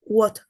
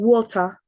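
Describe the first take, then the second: First: The middle t is replaced by a glottal stop. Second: The middle t is clearly pronounced. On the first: "they say what" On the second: "Instead of saying water"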